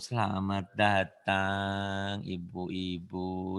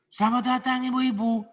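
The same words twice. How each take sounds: First: The phrase is drawn out in a lilting way. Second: The phrase is said crisply with firm emphasis. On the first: The speaker calls it wrong. "Bukan gitu" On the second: The speaker calls it right. "Seperti dihentak ya. Penekanan sih maksudnya"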